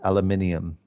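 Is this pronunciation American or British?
British. It is said in a British accent. "they say it completely different"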